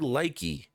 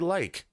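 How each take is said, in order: First: An extra 'ee' vowel is added at the end. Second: The word ends on the consonant, no extra vowel. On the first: The speaker calls it wrong. "we don't say likey unless you're in third grade" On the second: The speaker calls it right. "We just say like"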